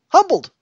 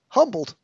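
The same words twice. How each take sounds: First: The word is said at its loudest. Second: The word is said more loudly.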